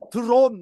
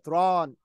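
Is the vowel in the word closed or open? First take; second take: closed; open. First: The vowel is a closed, rounded o sound. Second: The vowel is an open o mixed with ah. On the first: The speaker calls it wrong. "drawn 하면 안 되고요" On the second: The speaker calls it right. "아 사운드가 섞였다고 생각하시면 돼요"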